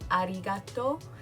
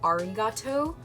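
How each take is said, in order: First: The R sounds like a light D. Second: The R sounds like an English R. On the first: The speaker calls it right. "It kind of sounds like a light D, so it'd be more like arigato" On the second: The speaker calls it wrong. "instead of arigato"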